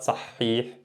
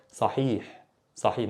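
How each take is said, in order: First: "صحيح" with a long, stressed middle h; wrongly emphasized. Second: Soft "صحيح" with a short middle h; no emphasis. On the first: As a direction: hold the ha in "صحيح" as if doubled. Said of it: "Not صحيح". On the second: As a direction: let "صحيح" go lightly, ha not doubled. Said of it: "there's no emphasis". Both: Shown as a demonstration.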